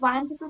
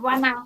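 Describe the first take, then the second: First: The two words are said separately and fully. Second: The two words are reduced to one form. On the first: "ওয়ান টু থাকলে"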